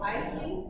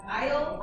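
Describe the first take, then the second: First: "Isley" in two syllables, lifted questioning; pronunciation option. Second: "Isle" as one syllable, questioning rise; pronunciation option. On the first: Teacher offers the class another pronunciation, "Isley" with an -ee ending. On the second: Teacher asks the class how to pronounce it, "Isle" said as one syllable. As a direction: offer "Isle" as a short, one-beat name. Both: Shown as a demonstration. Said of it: "how do we want to pronounce it".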